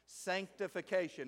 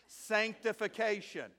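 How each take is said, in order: First: It is said plainly, without special assurance. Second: It is said with confident authority.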